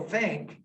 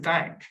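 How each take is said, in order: First: The vowel is a short 'ih' sound. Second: The vowel is lowered to an 'a' as in cat. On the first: This is the standard English way. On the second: This is the dialect way.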